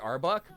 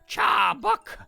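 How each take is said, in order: First: The name begins with a plain vowel sound. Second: The name begins with a 'ch' sound. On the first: This is the name as normally said. "instead of just Arbok" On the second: This imitates how the name is said in the cartoon. "the voice actor who does the Arbok voice goes"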